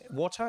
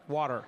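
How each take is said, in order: First: It is said in an English accent. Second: It is said in an American accent.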